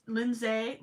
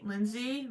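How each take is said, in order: First: "Lindsay" ending in -zay; name pronunciation attempt. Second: "Lindsay" ending in -zee; name pronunciation attempt. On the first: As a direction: say "Lindsay" with a final ay, as in day. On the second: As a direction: say "Lindsay" with a final ee, as in see. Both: Shown as a demonstration. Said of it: "I forget how to pronounce people's names".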